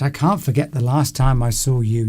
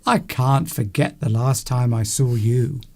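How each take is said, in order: First: It is said in a plain, neutral tone. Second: It is said with marked, expressive intonation.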